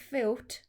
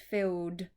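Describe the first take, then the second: First: The word ends with a t sound. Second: The word ends with a d sound. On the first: The speaker calls it wrong. "It's not filth" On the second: The speaker calls it right. "The E and the D in this word say D, not T"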